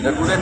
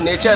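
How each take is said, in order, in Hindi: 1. इसे 'na-too-ray' की तरह बोला जाता है, अक्षर-दर-अक्षर। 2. इसे 'nay-cher' की तरह बोला जाता है, ch की आवाज़ के साथ। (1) "नटूरे थोड़ी है। अब प्रोनाउंसिएशन का फर्क था।" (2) "अब ये तो नेचर है"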